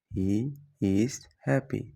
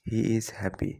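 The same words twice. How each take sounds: First: Slow, word by word for learners; slow clear repeat. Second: Said in the usual way. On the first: Shown as a demonstration. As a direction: spell it out slowly for students. (ধীরে স্পষ্ট করে) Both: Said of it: "example then repeated slowly".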